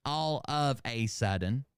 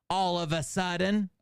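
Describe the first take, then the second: First: Slow "all of a sudden", the "a" said as "ay"; literal word-by-word reading. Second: High, theatrical reading of the phrase; declaimed read-out. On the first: Shown as a demonstration. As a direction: pick out each word, saying "a" like the letter A. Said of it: "I'm reading this exactly right". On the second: Acted. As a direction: declaim it like a line of verse.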